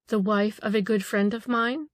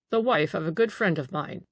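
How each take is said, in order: First: "The wife of a good friend of mine" lifted, rising at the end; quoting back. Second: Said in the usual way. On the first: A narrator's reading. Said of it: "quoted the Marchesa".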